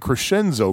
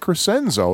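First: The 'sc' is said as a soft 'sh'. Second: The 'sc' is said as a hard 'sk'. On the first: The speaker calls it wrong. "I always been saying Crescenzo, because I always thought that SC ... would be pronounced like SH" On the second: The speaker calls it right. "He said it Crescenzo"

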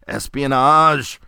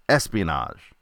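First: The word is said loudly, with great excitement. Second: The word is said plainly, without extra energy.

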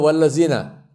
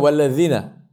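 First: The consonant is a plain z sound. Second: The consonant is a distinct Arabic sound. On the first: The speaker calls it wrong. "They will say wala zina" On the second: The speaker calls it right. "They won't say wala zina"

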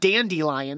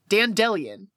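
First: The middle has an I sound with a y glide. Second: The middle has an E sound with no y glide. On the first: "that middle E is not supposed to be an I sound. It's not dandelion. There's no Y" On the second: "There's no Y. Dandelion. I guess. Man, I hate it"

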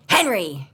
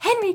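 First: It is said in a stern, scolding tone. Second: It is said in a happy, excited tone.

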